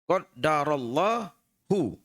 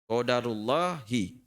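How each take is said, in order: First: The d is doubled and followed by a. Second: The d is single and followed by u. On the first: Allah has decreed it. "Tapi kalau kita membaca ditasdid roknya" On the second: It is the decree of Allah. "Kalau kita baca dalnya itu tidak ditasdid, maka roknya dibaca u"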